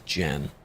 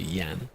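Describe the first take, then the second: First: The name begins with a J sound. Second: The name begins with a Y sound. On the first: The speaker calls it wrong. "they wouldn't say it as Jan" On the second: The speaker calls it right. "It would be Yan"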